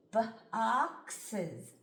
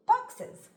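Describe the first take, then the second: First: "Boxes" stretched out slowly, sound by sound. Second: "boxes" read in one quick, higher, louder go; blended quickly. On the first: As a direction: drag "Boxes" apart into its sounds. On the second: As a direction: snap "boxes" together as one word. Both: Shown as a demonstration. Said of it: "Watch me sound this out".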